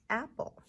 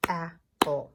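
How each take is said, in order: First: Said in the usual way. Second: "Apple" broken in two, ap... ple; loud, separated beats on "Apple"; clapped-out syllables. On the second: Shown as a demonstration. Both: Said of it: "Two syllables for apple".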